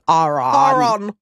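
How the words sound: The name is said in a British-Irish way. "they all pronounce it Aaron"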